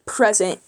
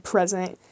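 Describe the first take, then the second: First: Said in the usual way. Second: A touch of regal defiance, a bit softer; like a mad king. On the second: Retold or imitated. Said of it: "like a mad king".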